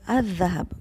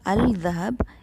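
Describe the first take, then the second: First: The l blends into the following consonant. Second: The l of the article is clearly pronounced. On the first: The speaker calls it right. "it is Al-Dhahab" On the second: The speaker calls it wrong. "So it is not Al-Dhahab"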